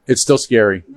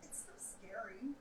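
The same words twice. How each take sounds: First: Said in the usual way. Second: Whispered nerves. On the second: Real, not acted. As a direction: say it under your breath. Nervous before race.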